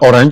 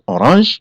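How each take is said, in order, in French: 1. Il se prononce avec des sons anglais. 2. Il se prononce avec des sons français. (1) "en anglais aussi, c'est la même écriture, mais on prononce aussi orange" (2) "en français, ça se prononce orange"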